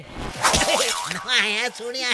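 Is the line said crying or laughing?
laughing. It is said while laughing heartily.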